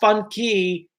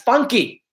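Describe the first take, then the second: First: The two words are said slowly and apart. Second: The two words are run together quickly. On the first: It is a key marked fun. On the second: It becomes the word funky.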